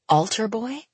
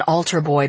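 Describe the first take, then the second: First: Put-on "Altar boy" lifted high into a question; "Altar boy" with a rising, puzzled tune; questioning echo. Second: Put-on "altar boy" tossed out as a falling statement; "altar boy" stated, dropping in pitch; dismissive jibe. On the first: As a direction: echo "Altar boy" in disbelief, pitch climbing to the end. Benji echoes the jibe in thought. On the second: Brother's jibe, later echoed as question. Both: A narrator's reading.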